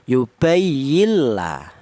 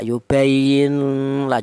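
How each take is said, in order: First: The n disappears and merges into a doubled l. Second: The n is blurred into a nasal sound. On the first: The speaker calls it right. "Jadi cara bacanya yubayilla" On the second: The speaker calls it wrong. "dibaca samar ikhfa ... juga jangan, salah"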